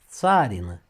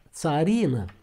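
First: The stress falls on the A syllable. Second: The stress falls on the I syllable. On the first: "când se referă la soția țarului... accentul este pe A" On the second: "cu accentul pe I"

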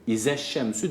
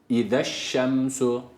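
First: The first consonant is a sharp z. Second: The first consonant is a lisped th sound. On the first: The speaker calls it wrong. "Bu iza yani keskin z burada yok" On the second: The speaker calls it right. "Peltek olan v harfi var"

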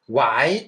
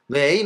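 First: The vowel sounds like 'ai', as in 'why'. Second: The vowel sounds like 'ei', as in 'way'. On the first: "ワイという人もいますし" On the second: "いろんな発音があるんですよ。ウェイの他に"

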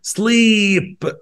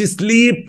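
First: The vowel is held long. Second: The vowel is cut short. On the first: The speaker calls it right. "برضو فيها double E تعمل long E. أقول كده sleep" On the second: The speaker calls it wrong. "ما أقولش sleep"

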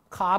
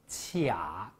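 First: The word begins with a k sound. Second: The word begins with a q sound. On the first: It is the reading used for sounds borrowed from foreign words. The speaker calls it wrong. "我听到有同学读卡，卡不对了" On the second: It means stuck, unable to go up or down. The speaker calls it right. "这个字读作卡，对了"

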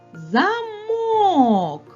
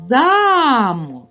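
First: The stress is on the second syllable. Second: The stress is on the first syllable. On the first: "А якщо ми переставимо наголос на звук О" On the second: "Наголос падає на звук А"

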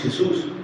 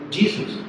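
First: The name is pronounced the Spanish way. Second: The name is pronounced the American English way. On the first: "Nosotros decimos Jesús" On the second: "los estadounidenses dicen Jesus"

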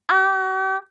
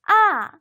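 First: The pitch stays high and level. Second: The pitch falls from high to low. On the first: "앞으로 쭉" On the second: "위에서 아래로"

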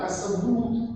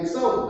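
First: The word is said slowly with drawn-out vowels. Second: The word is said short and plain. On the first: "чернігівська вимова типова ... таким протягом промовлялася" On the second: "не Аксаут"

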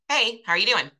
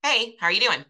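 First: It is said quickly and briefly, in passing. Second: It is said quickly and briefly, in passing.

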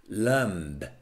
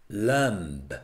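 The two takes are said the same way.

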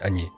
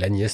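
First: The final s sound is left silent. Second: The final s sound is pronounced. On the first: This is the form used in this language. "on ne prononce jamais la dernière lettre" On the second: This is the usual form of the name. "elle s'appelle Agnès normalement"

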